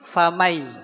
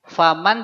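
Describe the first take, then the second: First: The N sound merges into the following sound. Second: The final N sound is pronounced clearly. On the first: "dia harus masuk" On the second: "Awalnya nun sukun ketemu ya itu man"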